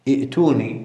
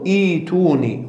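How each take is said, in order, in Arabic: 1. الهمزة تأتي بعد الحركة الأولى. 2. تتحول الهمزة إلى ياء مدّ طويلة. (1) "هذا خطأ" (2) "تبدل الهمزة الساكنة ياء، تقول ائتوني"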